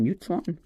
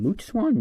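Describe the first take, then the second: First: "mute" said with a y glide, myoot; corrected MUTE. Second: "moot" said with a plain oo, no y glide; mispronounced MOOT. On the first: Streamer correcting a bird name, "mute" said as myoot. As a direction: say "mute" to rhyme with cute. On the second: Streamer reading a bird card, "moot" said like boot. Tries two readings of name. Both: Real, not acted.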